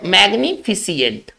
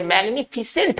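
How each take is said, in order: First: The ending is said as two syllables, 'see-ant'. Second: The ending is said as one syllable, 'sent'. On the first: The speaker calls it wrong. "बोलते कैसे मैग्निफिसियंट, फिसियंट बोलते हैं" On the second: The speaker calls it right. "इसका सही उच्चारण होना चाहिए मैग्निफिसेंट"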